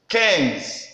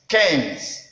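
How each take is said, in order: No difference in how they are said.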